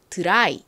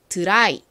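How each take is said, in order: Both takes have the same delivery.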